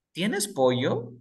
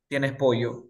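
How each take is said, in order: First: Slow ¿Tienes pollo? rising at the end; question tune. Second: ¿Tienes pollo? said with a falling end, as a statement; statement tune. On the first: Teacher to students, showing a slow rising question. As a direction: ask ¿Tienes pollo? slowly, lifting the last word. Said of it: "¿Qué significa allí?". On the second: Teacher to students, showing a flat statement tune. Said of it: "estoy preguntando o estoy afirmando". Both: Shown as a demonstration.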